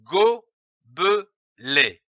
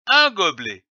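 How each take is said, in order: First: "gobelet" slowly split into go, be, let; syllable by syllable. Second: Said in the usual way. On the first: Shown as a demonstration. Teacher building a word for readers, "gobelet" sounded out syllable by syllable. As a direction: say "gobelet" in three separate beats with pauses. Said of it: "L'association de ces trois syllabes". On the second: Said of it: "donne le mot".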